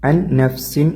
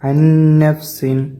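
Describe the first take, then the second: First: The first n is pronounced clearly and separately. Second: The first n merges into the next, nasalized. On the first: The speaker calls it wrong. "ഒരിക്കലും അൻ നഫ്സിൻ എന്ന് ഓതരുത്, ഇളഹാറാക്കിയിട്ട് ഓതാൻ പാടില്ല" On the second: The speaker calls it right. "അന്നഫ്സിൻ അങ്ങനെ ഓതുക"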